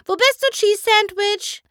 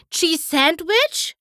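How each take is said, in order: First: Very high, loud call with the stress on bist; eager searching call; excited call. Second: High, slow, rising hopeful question; perking up at a friend's name; excited cry. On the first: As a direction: shout across the whole theatre for him. Pinkie calling through the theatre. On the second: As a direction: gasp out the name as if he might be here. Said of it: "schrie Pinkie Pie". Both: A narrator's reading.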